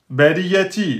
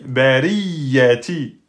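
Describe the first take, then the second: First: The y sound is short and single. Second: The y sound is doubled and held longer. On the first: The speaker calls it wrong. "vous avez oublié la shidda" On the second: The speaker calls it right. "on insiste sur le ya"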